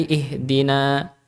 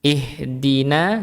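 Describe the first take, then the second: First: "ihdina" ending in a dark "naw"; heavy n and a in "ihdina"; thickened na. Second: "Ihdina" ending in a light open "naa"; slow "Ihdina" with a clean a; thin na. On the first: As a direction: round the last a of "ihdina" toward o. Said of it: "menebalkan huruf". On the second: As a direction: keep the a in "Ihdina" thin and front. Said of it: "dari lafadz nanya". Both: Shown as a demonstration.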